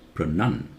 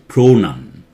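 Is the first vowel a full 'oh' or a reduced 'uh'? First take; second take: reduced uh; full oh. First: The first vowel is a reduced 'uh' sound. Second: The first vowel is a full 'oh' sound. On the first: The speaker calls it right. "it takes the uh sound" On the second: The speaker calls it wrong. "I did not say pronoun"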